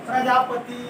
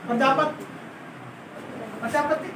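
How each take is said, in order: First: "प्रजापति" with a long, held "ee" at the end; habitual mispronunciation demo. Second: "प्रजापति" with a very short, light final i; correct short-i pronunciation. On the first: Teacher showing students their wrong habit, long final i. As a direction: say "प्रजापति" lower, ending in a full "tee". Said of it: "ये बोलने की आदत लग गई थी". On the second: Teacher showing the Lucknow nawabs' correct saying, short final i. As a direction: clip the end of "प्रजापति", almost "prajapat". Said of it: "वो बेचारे तो सही बोल रहे थे". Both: Shown as a demonstration.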